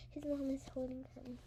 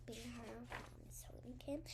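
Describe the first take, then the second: First: Said in the usual way. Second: Soft unvoiced whisper. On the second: A narrator's reading. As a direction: breathe the line out, no voice. Repeats sentence in a whisper.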